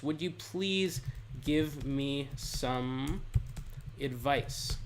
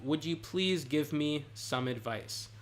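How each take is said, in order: First: Very slow, phrase by phrase with pauses; slow dictation. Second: Said in the usual way. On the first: Shown as a demonstration. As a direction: lay out "Would you please give me some advice?" word by word, slowly and carefully. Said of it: "now here's what you could say". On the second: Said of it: "you could end the paragraph like that".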